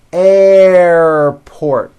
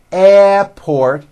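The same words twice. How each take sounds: First: Airport with a strong, drawn-out R, "airrr-port". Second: Airport said without the R, "ep-port"; wrong airport. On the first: Teacher modelling the right airport for learners. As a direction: lean hard on the R in airport. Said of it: "Like that with a strong R sound". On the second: Teacher showing the wrong way to say airport. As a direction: drop the R in airport to show the mistake. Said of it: "It's not airport". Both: Shown as a demonstration.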